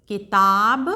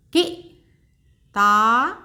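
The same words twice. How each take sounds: First: Said in the usual way. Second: किताब stretched very slowly, each syllable held long; slow teacher blending; slow sounding out. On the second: Shown as a demonstration. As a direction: draw out किताब for a learner. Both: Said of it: "एक बार फिर से दोहराते हैं".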